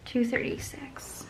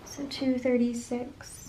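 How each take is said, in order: First: Slow whisper of a total. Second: Said in the usual way. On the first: Real, not acted. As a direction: whisper the number to yourself. Whispered sum while calculating.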